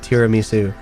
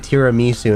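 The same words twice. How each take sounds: First: It is said with the standard pronunciation. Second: It is said with a slightly off pronunciation. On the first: The speaker calls it right. "instead of tiramisu" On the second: The speaker calls it wrong. "I say tiramisu"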